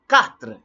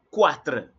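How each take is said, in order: First: The word begins with a plain k sound. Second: The word begins with a kw sound. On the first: The speaker calls it right. "Q or Q U sound the same as K" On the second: The speaker calls it wrong. "Don't say quatre. No, it's not quoi"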